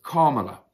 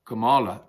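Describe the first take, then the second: First: Kamala said KAH-muh-luh, stress on the first syllable; Kamala with a strong opening KAH, the rest light; corrected Kamala pronunciation. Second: Kamala said kuh-MAH-luh, stress on the middle syllable; Kamala with a long, stressed MAH in the middle; mispronounced Kamala. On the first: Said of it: "you're meant to pronounce it". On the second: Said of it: "meant to pronounce it not Kamala". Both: Shown as a demonstration.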